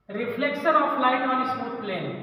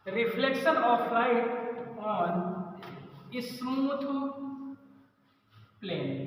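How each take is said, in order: First: Very slow, each word laid out for students to write; slow dictation. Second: "reflection of light", then "on", "smooth", "plane" each set apart by long pauses and fading softer; word-by-word dictation. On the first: Teacher dictating a new heading to the class, slow and steady. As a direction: read the heading slowly so the class can copy it. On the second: Teacher repeating the heading word by word so students can write it, fading softer. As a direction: break the heading into single words with long gaps. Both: Shown as a demonstration. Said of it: "अगली heading बनाइए".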